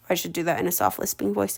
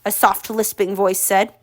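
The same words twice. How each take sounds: First: Murmured quickly, much softer; a fast hushed aside to herself; quiet aside. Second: Said in the usual way. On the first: Real, not acted.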